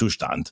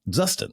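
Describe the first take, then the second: First: The name is said with a German pronunciation. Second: The name is said with an American pronunciation. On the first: The speaker calls it right. "how do you pronounce this? And it's Zustand" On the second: The speaker calls it wrong. "I called it Justin because I'm an American"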